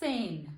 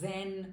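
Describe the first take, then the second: First: The word starts with a ts sound. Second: The word starts with a buzzing z sound. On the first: The speaker calls it right. "એવી જ રીતે છે સેન" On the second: The speaker calls it wrong. "But it's completely wrong"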